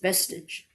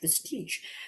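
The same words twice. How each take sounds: First: The word is pronounced in an English way. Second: The word is pronounced in a French-sounding way. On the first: The speaker calls it right. "but apparently it's vestige" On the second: The speaker calls it wrong. "I made it sound French"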